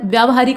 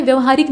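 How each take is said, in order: First: व्यावहारिक with long aa after vy. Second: व्यवहारिक with short a in the first syllable; short opening vowel in व्यवहारिक; wrong short vowel. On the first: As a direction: say व्यावहारिक starting vyaa. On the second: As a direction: say व्यवहारिक starting vya, not vyaa. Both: Shown as a demonstration. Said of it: "आ की मात्रा लगेगी".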